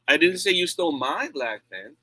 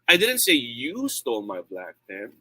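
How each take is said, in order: First: The stress falls on the word "my". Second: The stress falls on the word "you". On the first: The pen belonged to someone else. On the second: Someone else took the pen.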